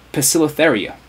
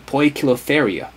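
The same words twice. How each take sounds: First: It is pronounced the modern American English way. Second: It is pronounced the classical Latin way. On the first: "modern English speakers in the U S would pronounce it" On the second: "if it's pronounced like classical Latin"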